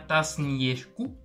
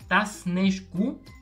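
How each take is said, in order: First: The second part begins with a 'ye' sound. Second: The second part begins with an 'e' sound. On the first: The speaker calls it wrong. "on ne dit pas tasn yeşku" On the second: The speaker calls it right. "on prononce e"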